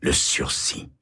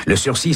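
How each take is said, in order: First: Le sursis chuchoté, sans voix. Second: Said in the usual way. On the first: A narrator's reading. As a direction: souffle le sursis comme un secret. Narrateur répète le mot, chuchoté. (chuchoté, sans voix)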